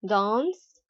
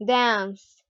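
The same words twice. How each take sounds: First: "dance" with a back "ah" vowel; British long A. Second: "dance" with the front vowel of cat; American short A. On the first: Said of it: "in British English". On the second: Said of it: "British and the American accents". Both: Shown as a demonstration.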